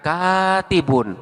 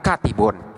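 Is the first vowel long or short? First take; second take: long; short. First: The first vowel is held long. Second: The first vowel is kept short. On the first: The speaker calls it right. "bunyi harkat fathah itu dibaca panjang" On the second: The speaker calls it wrong.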